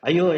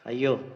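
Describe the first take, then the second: First: It is shouted with a tone of fear. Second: It is said with a tone of awe. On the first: The speaker fears being attacked. "சத்தம் போட்டோம்னா அந்த இடத்துல அந்த ஐயோங்கிற வார்த்தைக்கானது பயம்" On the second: The speaker is amazed by someone's expertise. "அந்த இடத்துல அர்த்தம் ஐயோங்கிறது ஒரு பிரமிப்பு"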